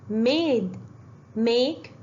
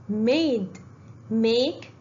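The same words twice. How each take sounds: Both takes have the same delivery.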